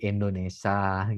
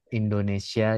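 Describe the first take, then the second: First: The word is pronounced with syllables clipped or merged. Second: The word is pronounced in full, every syllable. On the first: The speaker calls it wrong. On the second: The speaker calls it right.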